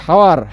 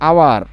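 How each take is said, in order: First: হাওয়ার said with a clear h sound at the start; wrong pronunciation with h. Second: আওয়ার said with no h, starting straight on the vowel; correct pronunciation, silent h. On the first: Teacher showing students the wrong way, হাওয়ার with an h. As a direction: voice the h in হাওয়ার, as the mistake to avoid. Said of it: "এটা তো হাওয়ার না". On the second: Teacher giving students the right way, আওয়ার without the h. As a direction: drop the h and say আওয়ার. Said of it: "এটা হচ্ছে আওয়ার". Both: Shown as a demonstration.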